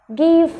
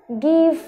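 Both takes have the same delivery.

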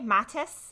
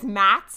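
First: It has a soft a and ends in -es. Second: It is one syllable with no final vowel. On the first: This follows the original German. "So it's like a soft A" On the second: This is the commonly heard version. "which is really common"

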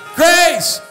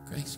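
First: The word is shouted loudly. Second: The word is said quietly and gently. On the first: The speaker calls it right. "Shout to the mountain" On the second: The speaker calls it wrong. "it didn't say quietly. It didn't say nicely"

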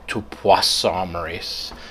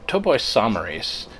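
First: The word is said with a French-style pronunciation. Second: The word is said with an English-style pronunciation. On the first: The speaker calls it wrong. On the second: The speaker calls it right.

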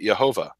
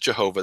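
First: The word begins with a Y sound. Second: The word begins with a J sound. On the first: "They pronounce it Yehovah" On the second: "they don't pronounce it Jehovah"

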